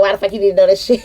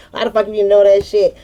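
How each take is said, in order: First: A hint of her brother cussing, straight; mild mock brother's rough question, no laugh; lightly voiced brother. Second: Quick brother's cussing with laughter breaking in; imitating the brother while cracking up, fast; laughing through it. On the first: Telling how her brother cussed her out, lightly imitated. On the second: Retelling her brother cussing her out, laughing fast. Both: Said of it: "my brother cussed me out".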